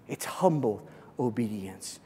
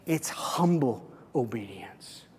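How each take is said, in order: First: Said in the usual way. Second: Soft, unvoiced whisper. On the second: Shown as a demonstration. Pastor hushing the key phrase for his congregation, whispered. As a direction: breathe the words, hushed. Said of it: "whispered repeat".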